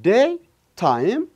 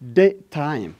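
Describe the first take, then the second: First: The two words are said separately with a break. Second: The two words are joined into one word.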